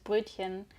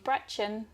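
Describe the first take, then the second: First: It is said with a German accent. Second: It is said with an English accent.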